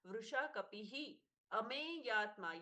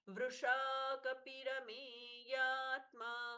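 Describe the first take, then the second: First: The words stay apart with an h sound between. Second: A full r sound joins into the next word. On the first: The two names are kept separate. "ये दो नाम है यहां पर" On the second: The two names are joined in recitation. "इसलिए र का पूर्ण उच्चारण"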